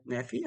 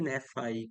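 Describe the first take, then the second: First: "Nefi" rhyming its last syllable with "see"; Nefi ending in FEE. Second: "Nefi" rhyming its last syllable with "eye"; Nefi ending in FYE. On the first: Streamer unsure how to pronounce a viewer's name, "Nefi" ending in fee. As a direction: say "Nefi" with a final "fee" sound. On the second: Streamer unsure how to pronounce a viewer's name, "Nefi" ending in fye. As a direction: say "Nefi" with a final "fye" sound. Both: Shown as a demonstration. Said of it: "paano ba ito i-pronounce".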